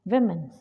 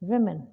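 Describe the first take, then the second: Both takes have the same delivery.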